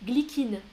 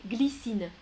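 First: Glycine said with a hard K, glikine; wrong glycine. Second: Said in the usual way. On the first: Shown as a demonstration. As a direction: glycine with a K sound in the middle. (glycine prononcé avec un K, glikine) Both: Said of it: "écoutez les trois prononciations".

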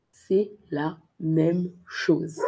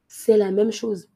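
First: Slow and clear C'est la même chose; slow model. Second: Said in the usual way. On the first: Shown as a demonstration. Teacher repeating slowly for learners. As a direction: draw it out slowly.

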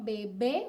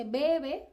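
First: "Bebé" stressed on the final "bé", rising; "Bebé" with the weight on its second syllable; stress on last syllable. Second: "bebé" stressed on the first syllable, "BE-be"; "bebé" misstressed at the front; wrong stress. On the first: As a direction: lift and land on the end of "Bebé". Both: Shown as a demonstration. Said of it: "uno no dice bebé".

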